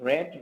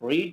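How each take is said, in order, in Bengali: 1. স্বরধ্বনিটি হ্রস্ব, যেমন 'red'-এ। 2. স্বরধ্বনিটি দীর্ঘ, যেমন 'reed'-এ। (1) "পরের দুটো রেড" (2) "প্রথমটা রিড"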